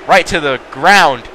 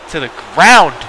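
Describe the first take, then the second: First: Said in the usual way. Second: Mock-serious stressed "ground"; emphasis on ground. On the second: Shown as a demonstration. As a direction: repeat it hitting "ground" hard for effect. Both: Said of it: "Emphasis on commentary".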